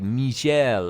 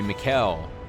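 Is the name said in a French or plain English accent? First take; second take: French; English. First: The name is said in a French accent. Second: The name is said in a plain English accent. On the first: The speaker calls it right. "I'm intentionally saying it as like a French accent" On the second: The speaker calls it wrong. "I've probably have been saying Mikkel's name wrong the whole time"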